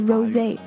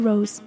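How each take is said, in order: First: It ends with an added ay vowel sound. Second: It is said like the English word rose. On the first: The speaker calls it right. "是Rosé" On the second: The speaker calls it wrong. "不是Rose"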